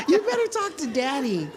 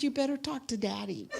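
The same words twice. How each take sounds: First: Much higher and louder, laughing through it; laughing repeat. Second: Quick, higher, half-laughing; laughing joke. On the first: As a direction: say it again, cracking up. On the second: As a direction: tease through a laugh, quicker. Joking comeback, laughing. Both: Retold or imitated.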